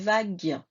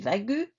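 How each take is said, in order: First: No vowel is sounded after the G. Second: A U vowel is sounded after the G. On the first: The speaker calls it right. "j'ai dit vague" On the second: The speaker calls it wrong. "j'ai pas dit vague"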